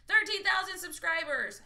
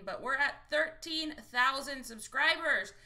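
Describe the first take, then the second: First: Higher and louder, hitting thirteen; thrilled streamer repeating the milestone; excited. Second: Said in the usual way. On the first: Real, not acted. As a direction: proudly shout out the number.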